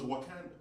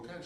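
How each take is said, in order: First: Wakanda said as a plain, sure fact, pitched up; the fan states Wakanda like a real country; confident answer. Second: Wakanda repeated flatly as a stunned question; disbelieving echo. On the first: Woman fan naming Wakanda confidently. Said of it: "She goes". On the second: Comedian echoing the fan, disbelieving. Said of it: "So I'm like". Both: Retold or imitated.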